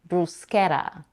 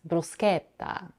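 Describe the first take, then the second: First: It is said with an American accent. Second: It is said with an Italian accent. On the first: "The standard way to pronounce it in American English is bruschetta" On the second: "pronounced in Italian as bruschetta"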